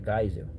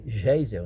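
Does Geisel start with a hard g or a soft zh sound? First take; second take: hard g; soft zh. First: It starts with a hard g sound. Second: It starts with a soft zh sound. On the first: This is the original German pronunciation. The speaker calls it right. "Mas é Geisel" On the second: This is the everyday local reading. The speaker calls it wrong. "Aí a gente lê Geisel"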